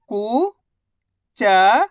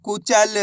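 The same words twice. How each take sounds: First: कुचल drawn out very slowly, syllable by syllable; slow syllable stretch. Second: Said in the usual way. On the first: Shown as a demonstration.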